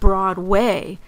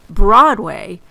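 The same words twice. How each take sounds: First: The stress is on the second syllable, way. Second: The stress is on the first syllable, broad.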